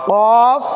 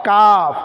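First: কফ long and rounded from the tongue root; back-of-tongue Q. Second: কাফ with the tongue slightly forward of its root; light, open K in কাফ, tongue on the palate. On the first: Teacher drills the contrast with kaf, tongue-root Q in কফ. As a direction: Q far back against the palate in কফ. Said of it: "জিহ্বার গোড়া". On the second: Teacher contrasts it with qaf, forward-tongue K in কাফ. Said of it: "একটু আগে সামনের দিকে". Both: Shown as a demonstration.

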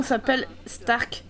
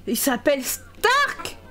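First: Said in the usual way. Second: Surprised repeat. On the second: Real, not acted. Streamer repeating the name Stark back in disbelief, astonished. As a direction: stretch it out and burst on "Stark" in disbelief.

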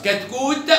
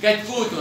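First: High كتكوت ending on released t; sukun ending. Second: كتكوت said as "katkootun"; damma tanween. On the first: Teacher tests an unknown word, كتكوت with bare t. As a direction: stop كتكوت on t. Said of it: "سكون مرة". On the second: Teacher tests an unknown word, كتكوت ending in -un. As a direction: add -un to كتكوت. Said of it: "وضمة مرة". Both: Shown as a demonstration.

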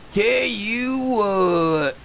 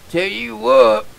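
First: Slow, soft drawn-out tell you what; slow drawl. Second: Said in the usual way. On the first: Acted. Gamer savoring his catchphrase, slow soft drawl.

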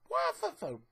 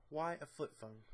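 First: High, disbelieving squeal of a question; pitched-up exasperated question; incredulous squeak. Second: Said in the usual way. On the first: Acted. Baffled rant about Tony's phone.

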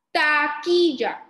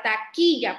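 First: "Taquilla" slowly as TA-KI-LLA, loud; teacher's slow, loud "Taquilla", syllables apart. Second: Said in the usual way. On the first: Shown as a demonstration. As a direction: sound out "Taquilla" in three stretched beats. Teacher sounds out word by syllables.

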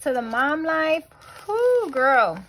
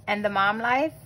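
First: Higher, louder hype for the mom life; excited cheer. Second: Said in the usual way. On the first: Real, not acted. Vlogger hyping up moms, excited cheer. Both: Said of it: "Like I said".

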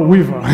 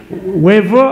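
First: Weaver said with an "ee" vowel, WEE-ver; second pronunciation attempt. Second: Weaver said with an "ay" vowel, WAY-ver; first pronunciation attempt. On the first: Preacher offering the reverend another try, "WEE-ver" for Weaver. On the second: Preacher unsure of the reverend's name, trying "WAY-ver" for Weaver. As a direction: say Weaver as "WAY-vuh". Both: Shown as a demonstration. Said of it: "I can't pronounce your name".

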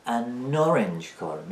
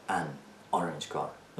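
First: "an orange car" drawn out as "a nnorange car"; linked n-sound. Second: "an orange car" lower and slow, "an" apart from "orange"; separated words. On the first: Teacher showing how natives say it, slow linked n. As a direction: stretch the n of "an" into "orange", very slowly. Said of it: "میگه". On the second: Teacher showing what natives don't say, words kept separate. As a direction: say "an", then "orange car" without linking, dropped lower. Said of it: "نمیگه an orange car". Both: Shown as a demonstration.

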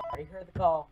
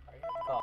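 First: Said in the usual way. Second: Muttered. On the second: Shown as a demonstration.

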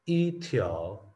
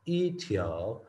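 No difference in how they are said.

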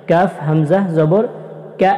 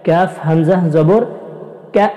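No difference in how they are said.

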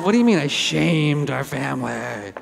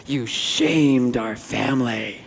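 First: Slowed, disbelieving comeback; mildly hurt, echoing his words back; indignant reply. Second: Slow, low, heavy disapproving brother; a hint of a solemn older brother passing judgment; brother's verdict. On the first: Retold or imitated. Speaker answering his brother, lightly mock-indignant. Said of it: "And I said". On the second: Brother scolding the speaker after the talk, slow and grave. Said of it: "and he goes".

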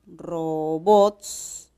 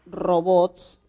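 First: "robots" drawn out as RO-BOTS; slow syllable-splitting demo of "robots". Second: Said in the usual way. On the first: Shown as a demonstration. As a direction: stretch "robots" slowly in two syllables. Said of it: "de silabeo". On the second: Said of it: "una palabra como".

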